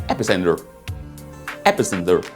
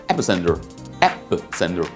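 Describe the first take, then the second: No difference in how they are said.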